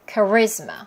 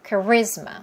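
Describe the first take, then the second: No difference in how they are said.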